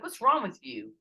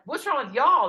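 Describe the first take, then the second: First: Higher, louder puzzled demand; acted-out accusing question; retold challenge. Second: High, loud acted comeback; retold outraged counter-question; indignant retort. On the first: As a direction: imitate friends asking in loud bafflement. Team's question in retold quarrel. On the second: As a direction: fling the question back, hitting Y'ALL. Throws the question back at team.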